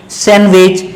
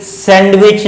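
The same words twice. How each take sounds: First: सैंडविच said as "san-wich"; corrected सैंडविच, no d; silent D. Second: सैंडविच with the D sounded; wrong pronunciation. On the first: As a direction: drop the d in सैंडविच. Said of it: "ये क्या पढ़ेंगे". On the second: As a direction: say सैंडविच slowly as "sand-wich". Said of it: "सैंडविच नहीं". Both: Shown as a demonstration.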